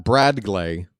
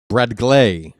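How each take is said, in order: First: "Brad Glay" with BRAD stressed, Glay lighter. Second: "Brad Glay" louder, GLAY stressed and falling. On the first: Announcer showing the rejected version, stress on "Brad". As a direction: put the weight on the first syllable, "Brad". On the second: Announcer correcting how the name goes, stress on "Glay". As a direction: land firmly on the second syllable, "Glay". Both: Shown as a demonstration. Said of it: "Not Brad Glay".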